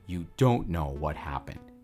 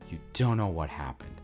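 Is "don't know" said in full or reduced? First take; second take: full; reduced. First: "Don't know" is said as two full words. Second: "Don't know" is reduced to "dunno". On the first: "instead of" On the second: "Or dunno instead of don't know"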